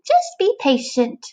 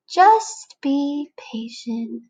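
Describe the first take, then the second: First: High, slow little caterpillar voice coaching himself; a small bug talking himself into waiting; caterpillar telling himself. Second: Very slow, calm friend voice; patient friend. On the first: Caterpillar urging himself to wait, high and slow. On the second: Friend telling the caterpillar to wait, very slow and calm. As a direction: drag it out soothingly like a patient pal. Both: Acted.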